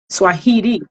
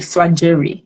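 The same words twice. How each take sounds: First: The middle consonant is an h sound. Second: The middle consonant is a j sound. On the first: This is how it is said in Spanish. "But if you pronounce it in Spanish, it's like an H" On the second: This is how it is said in America. "the J in America is like a G"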